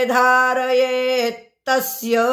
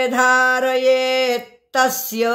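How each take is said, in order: No difference in how they are said.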